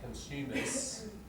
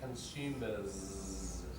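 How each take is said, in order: First: The final sound is a voiceless s. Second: The final sound is a voiced z. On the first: The speaker calls it wrong. "natives don't say consumers" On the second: The speaker calls it right. "They say consumers. Voiced"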